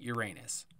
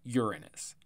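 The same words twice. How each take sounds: First: The word sounds like 'your anus'. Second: The word does not sound like 'your anus'. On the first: The speaker calls it wrong. "not Uranus. It's an asshole who said that" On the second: The speaker calls it right. "it's Uranus"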